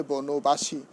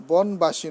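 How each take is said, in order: First: বনবাসী as bono-bashi, linking o sounded; correct pronunciation. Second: বনবাসী as bon-bashi, no vowel after n; wrong pronunciation. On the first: Teacher correcting the compound for students, correct pronunciation. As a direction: say বনবাসী with an o after n. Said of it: "হবে". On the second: Teacher showing students what to avoid, wrong pronunciation. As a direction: say বনবাসী in three syllables, bon-ba-shi. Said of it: "নয়". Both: Shown as a demonstration.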